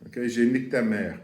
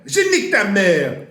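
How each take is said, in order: First: Said in the usual way. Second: Je nique ta mère yelled high and loud; shouted insult. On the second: Shown as a demonstration. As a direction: hurl "Je nique ta mère" like a real fight insult.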